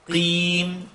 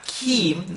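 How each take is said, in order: First: The first consonant is made just behind the k position. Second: The first consonant is a plain k, as in key. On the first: The speaker calls it right. "right behind that" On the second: The speaker calls it wrong. "It's not keem, like a key"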